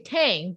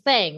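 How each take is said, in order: First: The name starts with a plain t. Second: The name starts with a th sound. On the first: This is the name's real pronunciation. The speaker calls it right. "It's actually Tang" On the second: This is how most people say the name. The speaker calls it wrong. "everyone thinks my name is"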